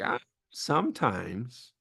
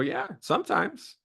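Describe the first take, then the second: First: It sounds reluctant and negative. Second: It sounds willing and positive.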